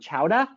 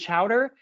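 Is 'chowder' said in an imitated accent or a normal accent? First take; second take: imitated; normal. First: It is said imitating another regional accent. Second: It is said in the speaker's ordinary accent.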